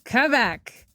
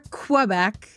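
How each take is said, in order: First: The word begins with a plain k sound. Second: The word begins with a kw sound.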